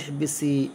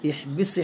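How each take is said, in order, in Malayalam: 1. വാക്ക് ചേർത്ത 'i' സ്വരാക്ഷരത്തിലാണ് അവസാനിക്കുന്നത്. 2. വാക്ക് 's' എന്ന വ്യഞ്ജനത്തിലാണ് അവസാനിക്കുന്നത്.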